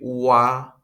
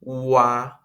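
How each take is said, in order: First: The two vowels glide together as one. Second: The two vowels glide together as one.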